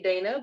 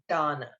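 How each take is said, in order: First: The first vowel sounds like 'day'. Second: The first vowel sounds like 'dot'. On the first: Some people might say the name this way. The speaker calls it wrong. "I know someone might say Dana" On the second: The book gives the name this way. The speaker calls it right. "in the book, she is pronounced as Donna"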